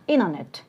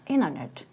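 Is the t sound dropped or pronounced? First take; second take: dropped; dropped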